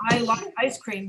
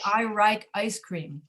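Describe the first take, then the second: First: Said in the usual way. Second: Slow demo, "like" starting with an R sound; L and R swapped. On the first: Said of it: "So they say, for example". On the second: Shown as a demonstration. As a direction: say "like" as "rike", with an R for the L. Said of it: "cannot hear the difference between L and R".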